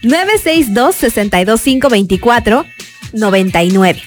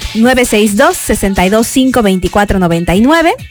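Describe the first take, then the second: First: The number is said slowly. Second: The number is said fast.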